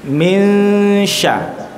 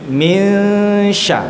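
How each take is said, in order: First: The n fades into the following sh sound. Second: The n fades into the following sh sound.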